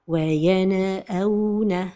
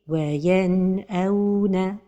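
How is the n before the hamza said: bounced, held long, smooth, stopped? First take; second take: bounced; smooth. First: The n is released with an echoing bounce. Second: The n flows smoothly into the next sound. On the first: The speaker calls it wrong. "Parmi les erreurs de prononciation, c'est al-qalqala" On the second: The speaker calls it right. "la prononciation correcte est"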